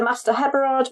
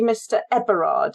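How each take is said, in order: First: Heberard with a sounded H at the start; H pronounced. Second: Eberard starting straight on the vowel. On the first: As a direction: say Heberard with an added H. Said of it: "with the H pronounced". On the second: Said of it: "he's actually Mister Eberard". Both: Shown as a demonstration.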